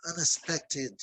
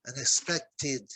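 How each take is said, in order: First: Said in the usual way. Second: Unexpected said slowly, syllable by syllable, ending ted clear; slow careful model. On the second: Shown as a demonstration. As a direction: spell out unexpected slowly for students, -ted audible. (unexpected devagar, sílaba por sílaba, final ted claro) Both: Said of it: "a palavra termina em E D".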